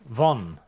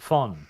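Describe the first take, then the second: First: The word begins with a voiced V sound. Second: The word begins with a voiceless F sound. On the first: The speaker calls it wrong. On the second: The speaker calls it right.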